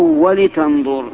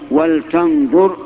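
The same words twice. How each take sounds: First: The l is followed by a short i vowel. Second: The l is said with no vowel after it. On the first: The speaker calls it wrong. "ولا بالكسر" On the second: The speaker calls it right. "بسكون اللام"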